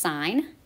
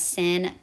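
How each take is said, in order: First: The word is said with a long 'i', like 'sign'. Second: The word is said with a short 'i', like 'sin'. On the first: The speaker calls it right. "so that's actually pronounced sine" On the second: The speaker calls it wrong. "A lot of pe people mispronounce them as sin"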